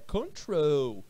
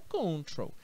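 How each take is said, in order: First: The stress is on the second syllable. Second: The stress is on the first syllable. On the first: The speaker calls it right. "a minha sílaba forte é o troll" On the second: The speaker calls it wrong. "não é control"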